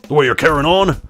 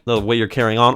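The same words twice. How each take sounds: First: It is said in a put-on gruff character voice. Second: It is said in the speaker's ordinary voice.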